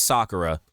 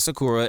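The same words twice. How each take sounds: First: Sakura as SAH-kuh-ruh; correct Sakura. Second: Sakura as suh-KOO-ruh; mispronounced Sakura. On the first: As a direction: stress the first syllable of Sakura. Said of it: "it's Sakura". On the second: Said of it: "It's not Sakura". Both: Shown as a demonstration.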